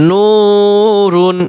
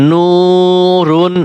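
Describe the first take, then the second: Both takes have the same delivery.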